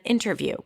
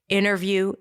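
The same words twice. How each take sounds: First: The t after the n is pronounced. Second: The t after the n is dropped.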